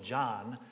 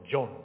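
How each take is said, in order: First: The vowel is an open, unrounded 'ah' sound. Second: The vowel is a rounded 'oh' sound.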